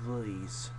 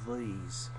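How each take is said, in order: First: The word has a shifted, hillbilly-like vowel. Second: The same.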